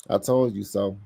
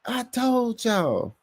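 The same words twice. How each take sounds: First: Said in the usual way. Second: Very high, drawn-out catchphrase; Mad Mike. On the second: Retold or imitated. Host echoes the catchphrase as Mad Mike, high slow holler. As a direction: stretch it out in a mock high holler. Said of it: "in my Mad Mike voice".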